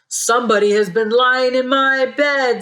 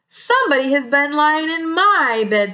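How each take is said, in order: First: It is said in a loud, big voice. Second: It is said in a medium-sized voice.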